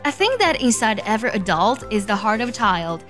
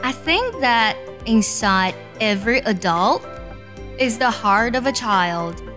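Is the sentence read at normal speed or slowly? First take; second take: normal; slowly. First: It is read at normal speed. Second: It is read slowly.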